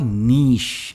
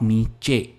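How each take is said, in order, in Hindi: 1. शब्द एक सिलेबल में बोला जाता है। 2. शब्द दो सिलेबल में बोला जाता है। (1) "बहुत ही सिंगल सिलेबल वर्ड है ये" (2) "नॉट नीचे"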